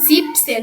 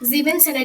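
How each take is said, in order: First: It is said with two syllables, shortened. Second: It is said with three syllables, unshortened. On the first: The speaker calls it right. "এটা কি হবে জিপসেন মানে সতেরো" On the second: The speaker calls it wrong. "জিবেন সেন না"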